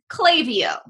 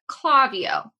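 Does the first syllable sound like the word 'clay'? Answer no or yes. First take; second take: yes; no. First: The first syllable sounds like 'clay'. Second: The first syllable does not sound like 'clay'. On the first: The speaker calls it right. "It's pronounced Klaviyo, which I now will remember because clay" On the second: The speaker calls it wrong. "in my head, have been pronouncing it Klaviyo"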